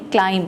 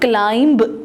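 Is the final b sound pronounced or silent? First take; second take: silent; pronounced. First: No b sound is heard at the end. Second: A b sound is heard at the end. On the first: The speaker calls it right. "हम इसको पढ़ेंगे क्लाइम, बी silent है" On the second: The speaker calls it wrong. "हम इसको क्लाइंब नहीं पढ़ेंगे"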